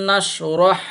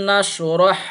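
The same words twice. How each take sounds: Both takes have the same delivery.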